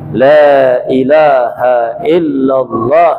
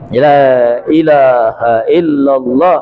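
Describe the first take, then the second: The two takes are said the same way.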